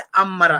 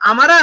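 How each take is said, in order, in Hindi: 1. m की आवाज़ खिंची हुई और दोहरी है। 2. m की आवाज़ छोटी और एकल है। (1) "बल्कि अमरा है" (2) "यहाँ पे अमरा नहीं है"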